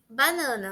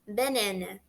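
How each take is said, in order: First: It is pronounced with Portuguese vowel sounds. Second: It is pronounced with English vowels, including an e-like sound.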